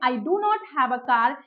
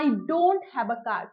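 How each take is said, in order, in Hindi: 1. Do not को दो पूरे शब्दों की तरह बोला जाता है। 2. Do not को एक सिलेबल में छोटा करके बोला जाता है।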